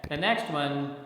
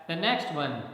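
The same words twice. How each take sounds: No difference in how they are said.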